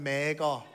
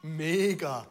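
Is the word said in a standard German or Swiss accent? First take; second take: Swiss; standard German. First: It is said in a Swiss German accent. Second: It is said in a standard German accent.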